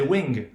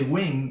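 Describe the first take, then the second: First: The word ends with an audible hard g. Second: The word ends in ng with no g. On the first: The speaker calls it wrong. "we don't say wing" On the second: The speaker calls it right. "that is why we say wing"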